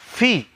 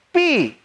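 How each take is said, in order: First: The syllable starts with an f sound. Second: The syllable starts with a p sound. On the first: The speaker calls it right. "padahal fi" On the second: The speaker calls it wrong. "Pi, padahal fi"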